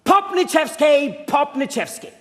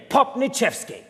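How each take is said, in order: First: Slow, loud call of a name; yelling the name. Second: Said in the usual way. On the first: Shown as a demonstration. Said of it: "yell at the top of your lungs". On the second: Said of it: "don't forget the name".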